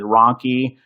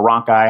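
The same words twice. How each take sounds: First: Ronchi ending in an "ee" sound; pronounced RON-kee. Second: Ronchi ending like the word "eye"; pronounced RON-kai. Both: Shown as a demonstration. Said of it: "however you wanna pronounce it".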